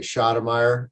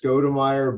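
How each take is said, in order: First: The name starts with a 'sh' sound. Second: The name starts with a 'sk' sound. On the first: This is a nickname based on artillery calls. "people like to call me Shotomeyer" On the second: This is the family's own pronunciation. "technically it's Skodemeyer"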